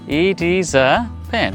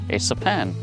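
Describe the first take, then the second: First: The words it and is are said separately. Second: It and is are joined into one syllable.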